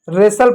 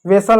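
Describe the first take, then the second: First: रेसल said as "resal", w silent; correct pronunciation. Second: वेसल with a w sound, "vesal"; wrong pronunciation. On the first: Teacher gives students the right form: रेसल without the w. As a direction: start रेसल straight on the r, "resal". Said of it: "रेसल पढ़ते हैं". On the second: Teacher warns students off the wrong वेसल with a voiced w. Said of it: "वेसल नहीं पढ़ते हैं". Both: Shown as a demonstration.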